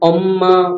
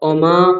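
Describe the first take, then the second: First: The m sound is held and doubled. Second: The m sound is short and single. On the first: The speaker calls it wrong. "অম্মা এরকম বলতাম না" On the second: The speaker calls it right. "অমা এরকম একটা বলতাম"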